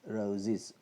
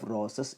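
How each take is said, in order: First: The plural ending is said with a z sound. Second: The plural ending is said with an s sound. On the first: The speaker calls it right. "it should be pronounced as roses" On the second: The speaker calls it wrong. "Instead of roses"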